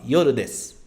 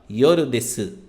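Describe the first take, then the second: First: The phrase ends with a bare s sound. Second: The phrase ends with a full u vowel. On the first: The speaker calls it right. "o des. ... você fala yoru desu" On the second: The speaker calls it wrong. "Você não fala yoru desu"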